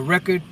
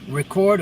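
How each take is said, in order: First: Record said REC-ord, stress on the first syllable; noun form record. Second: Record said re-CORD, stress on the second syllable; verb form record. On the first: Teacher giving the second reading of the word, stress on the first syllable. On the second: Teacher giving the first reading of the word, stress on the second syllable. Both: Shown as a demonstration. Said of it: "record or record".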